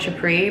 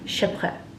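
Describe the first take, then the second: First: The word is said with an American pronunciation. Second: The word is said with a French pronunciation. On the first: "I'm American and that's how I'm going to pronounce it" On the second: "if I'm not mistaken, in French"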